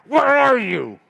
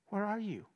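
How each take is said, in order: First: It is said in a harsh, demanding tone. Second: It is said in a warm, longing tone.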